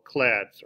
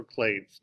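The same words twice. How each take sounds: First: "clades" said with a short a, as in "clad"; "clades" pronounced like "clads"; short-a variant. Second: "clades" said with a long a, as in "blade"; "clades" with the vowel of "day"; long-a variant. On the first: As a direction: say "clades" to rhyme with "lads". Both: Shown as a demonstration. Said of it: "depending on how you want to say it".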